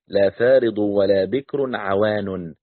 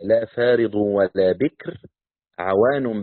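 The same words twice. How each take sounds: First: بكر and عوان run together without pause. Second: There is a pause after بكر. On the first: عوان seems to describe بكر. "يمكن أن تقرأها بالوصل" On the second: عوان starts a new phrase of its own. "كان يقف يقرأ هكذا"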